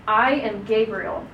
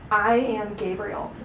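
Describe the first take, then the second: First: Said in the usual way. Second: Slow, weighty self-introduction; slow and solemn angelic announcement. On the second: Shown as a demonstration. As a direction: announce yourself slowly, with gravity. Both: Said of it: "Kind of like in that tone".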